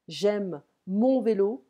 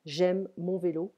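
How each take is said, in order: First: "mon" stressed, slow and louder, rising; slow teaching emphasis on "mon". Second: Said in the usual way. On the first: Shown as a demonstration. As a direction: lean on "mon" to show the masculine possessive. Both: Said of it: "we need to pay attention".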